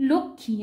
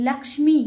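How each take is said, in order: First: লক্ষ্মী said the everyday way as "lokkhi", with a doubled kh and no m; the common spoken লক্ষ্মী, "lokkhi"; everyday Bengali pronunciation. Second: লক্ষ্মী said as "lakshmi", with a clear ksh and m, and a little louder; Sanskrit pronunciation. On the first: Teacher shows students the everyday লক্ষ্মী, "lokkhi". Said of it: "আমরা খুব বলি না লক্ষ্মী". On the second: Teacher shows students the Sanskrit লক্ষ্মী, a crisp "lakshmi". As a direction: sound out every consonant of লক্ষ্মী, "lakshmi". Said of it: "সংস্কৃতে তার উচ্চারণ হয়". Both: Shown as a demonstration.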